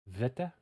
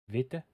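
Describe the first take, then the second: First: The word begins with a V sound. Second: The word begins with a V sound.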